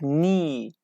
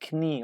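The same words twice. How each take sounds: First: The word starts with an n sound. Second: The word starts with a k sound. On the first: The speaker calls it right. "we pronounce like knee" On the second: The speaker calls it wrong. "not knee"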